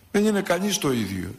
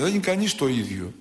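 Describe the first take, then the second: First: Είναι lifted and pressed, falling at the end; stress on είναι. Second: Said in the usual way. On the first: Shown as a demonstration. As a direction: lean hard on είναι. (έμφαση στο είναι)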